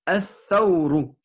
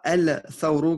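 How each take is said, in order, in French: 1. Le l de l'article se fond dans la consonne doublée. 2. Le l de l'article se prononce clairement. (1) "voilà" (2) "et non pas el-thawru qui est une erreur"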